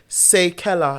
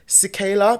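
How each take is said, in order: First: The first syllable sounds like 'say'. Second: The first syllable sounds like 'see'. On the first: The speaker calls it right. "it's actually say Keller, like say and Keller in the name" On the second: The speaker calls it wrong. "people always say, oh, cicala. They can't pronounce it well"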